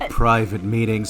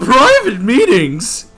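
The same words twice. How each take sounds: First: The voice is pitched very deep. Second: The voice is pitched much higher.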